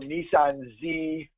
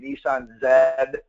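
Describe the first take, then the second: First: The letter is said the American way, 'zee'. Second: The letter is said the Canadian way, 'zed'.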